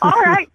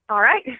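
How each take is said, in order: First: It is said with more enthusiasm. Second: It is said flatly, without enthusiasm.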